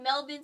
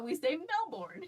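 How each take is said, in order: First: "Melbourne" as "MEL-bin"; local accent pronunciation. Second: "Melbourne" as "MEL-born", pitched higher; American pronunciation. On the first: Quoting the local version, "Melbourne" as "MEL-bin". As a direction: clip the end of "Melbourne" to "bin". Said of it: "specifically in the accent". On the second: Explaining American usage, higher-pitched "Melbourne" as "MEL-born". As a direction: give "Melbourne" a full "born" ending. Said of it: "In America". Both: Shown as a demonstration.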